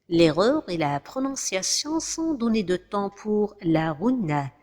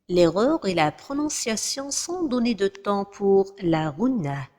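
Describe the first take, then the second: Both takes have the same delivery.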